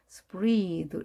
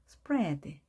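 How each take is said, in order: First: The vowel is not an 'e' sound. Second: The vowel is an 'e' sound. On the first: The speaker calls it wrong. "이것을 spread 읽지 않도록 주의하시고요" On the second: The speaker calls it right. "bread처럼 에 발음했습니다"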